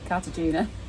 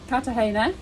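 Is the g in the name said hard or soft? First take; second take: hard; soft. First: The g is said as a hard g. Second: The g is said softly, not as hard g. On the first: This is how the speaker says the name. "I pronounce it Cartagena because it's got a gut in it" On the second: This is how a companion says the name. "as Neil pronounces it"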